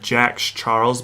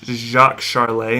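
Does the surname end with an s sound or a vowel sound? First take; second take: s sound; vowel sound. First: The surname ends with an s sound. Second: The surname ends with a vowel sound. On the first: The speaker calls it wrong. "I probably would have said Jacques Charles" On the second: The speaker calls it right. "but it's Jacques Charlet"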